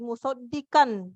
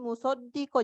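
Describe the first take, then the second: First: The final n sound is clearly pronounced. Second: The final n sound is dropped and merged. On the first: The speaker calls it wrong. "tidak dibaca lagi musaddiqan" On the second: The speaker calls it right. "tetapi musaddiqo, jadi dilebur ya di dalam huruf lam"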